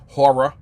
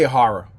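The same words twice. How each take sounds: First: The word has a standard careful pronunciation. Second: The word has a casual dialect pronunciation. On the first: This is how it is supposed to be said. The speaker calls it right. "but it's horror" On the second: This is how the speaker himself says it. The speaker calls it wrong. "I say horror"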